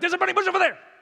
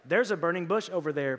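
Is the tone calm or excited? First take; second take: excited; calm. First: It is said excitedly, with strong emphasis. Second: It is said calmly, without excitement.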